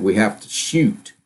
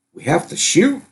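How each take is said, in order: First: "We have to shoot" said slowly as a firm statement, "shoot" not questioning; flat statement. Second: "We have to shoot" with a rising, questioning end on "shoot". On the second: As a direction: ask it, lifting "shoot" up at the end. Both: Retold or imitated. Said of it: "she didn't say it as a question".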